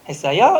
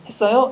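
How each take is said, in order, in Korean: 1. 제주 억양에서는 끝이 확 튀어요. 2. 표준 한국어 억양에서는 끝이 부드럽게 유지돼요. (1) "제주도는 뒤가 튑니다. 이런 식으로 좀 튑니다" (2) "막 이렇게 했어요? 이렇게 하잖아요"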